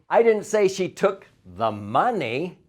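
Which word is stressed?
money. The stress falls on the word money.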